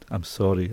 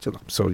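First: The apology sounds heartfelt and sincere. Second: The apology sounds quick and dismissive. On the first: The apology is truly meant. The speaker calls it right. "Say it sincerely from your heart" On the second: The apology is not truly meant. The speaker calls it wrong. "Don't say"

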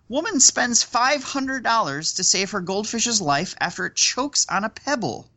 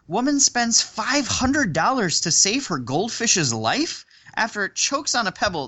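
First: It ends with a fall, like a statement. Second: It ends with a rise, like a question.

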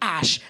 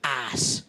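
First: The word ends with an 'sh' sound. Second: The word ends with an 's' sound. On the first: "pronounced the word ash" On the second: "as ass"

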